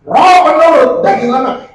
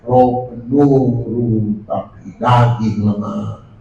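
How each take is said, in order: First: Higher and louder, words driven hard; stern rebuke. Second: Slow, lower, drawn-out mock of a lazy congregant; lazy excuse. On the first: Shown as a demonstration. Preacher reading the verse as a rebuke, forceful. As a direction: say it as the correction it is. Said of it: "Itu ayat teguran". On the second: Preacher mimicking a church member's lazy excuse, slow and low. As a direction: drag it out like a sleepy excuse. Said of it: "Dia bilang".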